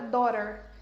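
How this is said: It is said in an American English accent. "Se você aprende o inglês americano e aprendeu a pronúncia"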